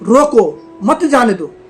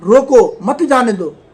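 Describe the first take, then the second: Both takes have the same delivery.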